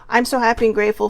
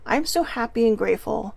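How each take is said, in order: First: It is said flatly with sarcasm. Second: It is said warmly with real feeling. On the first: The speaker does not believe the words. The speaker calls it wrong. "there's no feeling in it" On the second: The speaker truly believes the words. The speaker calls it right. "flip the vibe, and instead of saying it with pure sarcasm"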